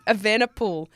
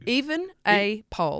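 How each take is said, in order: First: The last syllable sounds like 'pool'. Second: The last syllable sounds like 'pole'. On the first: The speaker calls it right. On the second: The speaker calls it wrong.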